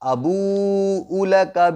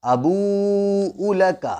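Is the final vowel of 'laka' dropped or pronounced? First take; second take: pronounced; pronounced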